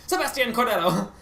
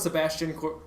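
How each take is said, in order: First: High-pitched mock Spanish accent; very thick accent. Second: Said in the usual way. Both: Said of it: "said it with a very thick accent".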